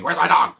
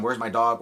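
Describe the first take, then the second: First: Loud, raised-pitch mock yell; imitated scream. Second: Said in the usual way. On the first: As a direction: yell it out, imitating an angry movie character. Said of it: "actually screaming". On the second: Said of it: "Well, actually screaming".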